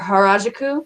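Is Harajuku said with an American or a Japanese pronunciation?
Japanese. It is said with a native Japanese pronunciation.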